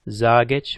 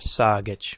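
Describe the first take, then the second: First: The word starts with a voiced Z sound. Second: The word starts with a voiceless S sound.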